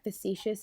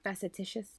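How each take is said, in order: First: The word has three syllables, ending in 'shus'. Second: The word has four syllables, with an extra 'ti'. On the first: The speaker calls it right. "I recently learned that facetious is not" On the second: The speaker calls it wrong. "is not facetitious"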